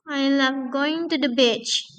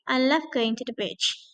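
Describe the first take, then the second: First: The voice rises at the end. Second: The voice falls at the end.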